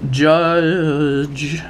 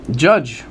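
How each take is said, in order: First: Long drawn-out mock reveal; hammed-up announcement. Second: Said in the usual way. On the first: Host revealing number one after a drum roll, hammed-up announcement. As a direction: stretch the word out like a cheesy big reveal. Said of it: "my horrible performance". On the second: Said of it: "that was pretty bad".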